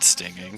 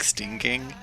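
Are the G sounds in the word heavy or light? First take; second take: light; heavy. First: The G sounds are pronounced lightly. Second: The G sounds are pronounced heavily. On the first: "just saying like you know the word stinging" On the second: "it likes to ha- have heavy G's"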